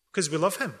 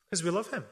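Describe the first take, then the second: First: Said in the usual way. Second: "Because we love him" said again much softer, falling on "him"; softer repeat. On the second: Shown as a demonstration. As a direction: let "him" sink gently on the echo.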